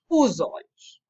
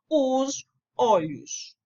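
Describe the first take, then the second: First: The s runs straight into the following vowel. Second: The s is cut off from the following vowel. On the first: The speaker calls it right. "prescreve a fonologia que eu devo dizer os olhos" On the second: The speaker calls it wrong. "eu devo fazer um enlace e não posso dizer os olhos"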